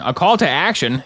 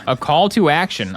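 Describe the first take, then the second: First: "call" stressed, falling at the end. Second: "to" stressed, falling at the end. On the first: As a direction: hit "call" in "A call to action". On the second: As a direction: lean on "to" in "A call to action". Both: Shown as a demonstration.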